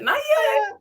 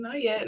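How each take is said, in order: First: A silly high-pitched echo of yourself; squeaky high repeat. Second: Said in the usual way. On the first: Shown as a demonstration. To a friend about the show, in a silly squeak.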